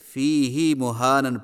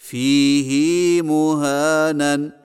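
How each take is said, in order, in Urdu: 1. h کے بعد والی حرکت چھوٹی ہے۔ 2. h کے بعد والی حرکت لمبی کی جاتی ہے۔ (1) "فی ہی ہدن کی طرح فی ہی مہانن پڑھنا صحیح نہیں ہے" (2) "ہا کو کچھ کھینچ کر پڑھیں گے"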